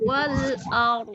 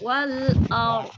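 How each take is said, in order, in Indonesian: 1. Konsonan akhir dihentikan mendadak. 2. Konsonan akhir dipanjangkan lebih lama. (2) "panjang dulu"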